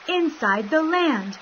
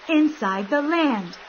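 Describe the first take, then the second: No difference in how they are said.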